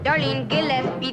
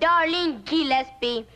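First: The name is stressed on its usual syllables. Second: The name is stressed on unusual syllables. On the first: "Now here's a very good example here" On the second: "You put emphasis on the wrong syllable"

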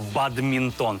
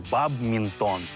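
First: A d sound comes before the m. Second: A b sound comes before the m. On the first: The speaker calls it right. "а «бадмінтон»" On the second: The speaker calls it wrong. "правильно говорити не «бабмінтон»"

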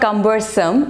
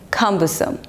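First: The stress falls on the second syllable. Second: The stress falls on the first syllable. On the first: The speaker calls it wrong. "It's not cumbersome" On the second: The speaker calls it right. "it's cumbersome. ... So the stress is on the first syllable"

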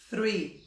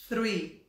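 The two takes are said the same way.

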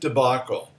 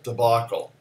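First: The first syllable is not said as 'duh'. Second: The first syllable is said as 'duh'. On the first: "I've always pronounced it debacle" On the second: "that's an alternate pronunciation for the first syllable"

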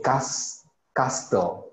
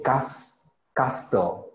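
First: The word is said with a 't' sound in the middle. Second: The same.

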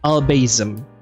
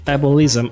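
First: The word is said as 'albasm'. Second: The word is said as 'ableism'. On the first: The speaker calls it wrong. "I keep saying albasm, which is like kind of foolish" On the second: The speaker calls it right. "instead of ableism"

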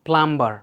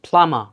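First: The word is said with a 'b' sound. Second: The word is said with no 'b' sound. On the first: The speaker calls it wrong. "not plumber" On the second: The speaker calls it right. "এই যে বি sound would be silent"

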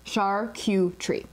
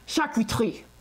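First: It is said as char, Q, tree, with an American R. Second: The R is made in the back of the throat. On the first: "As an American... char, Q... and tree" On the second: "they love this like sound coming out of the back of their throats when they say their R's"

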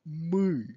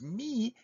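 First: The vowel is a central 'ы' sound. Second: The vowel is a front 'ee' sound. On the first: It means we or us. The speaker calls it right. "You have really to say мы, ы" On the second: It sounds like the musical note mi. The speaker calls it wrong. "if you would pronounce this as me, it would not be мы"

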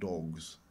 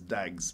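First: The vowel is rounded and o-like, as in 'dogs'. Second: The vowel is open and a-like, as in 'dags'. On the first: It is the usual pronunciation. "Not dogs" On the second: It imitates the regional accent from the movie. "In that scene from that movie, it's dags"

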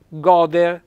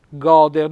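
No difference in how they are said.

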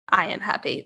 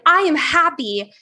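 First: It is said quietly and with flat energy. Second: It is said loudly and with lively energy. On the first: The speaker does not really believe the affirmation. The speaker calls it wrong. "is a lot different than" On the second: The speaker truly means and feels the affirmation. The speaker calls it right. "say it with motion and with your body engaged"

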